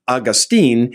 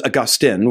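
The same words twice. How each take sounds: First: The name is said the modern US way. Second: The name is said the older way. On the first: "Augustine is a more modern U.S. English pronunciation" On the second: "The older pronunciation is Augustine"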